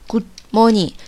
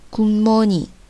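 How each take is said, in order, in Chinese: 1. 这个词读的时候没有音变。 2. 这个词读的时候有音变。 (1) "可能有的同学没有发现音变的话，就会读成Good morning。是不是特别别扭啊？" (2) "它这边其实有音变的，是读成Good morning。"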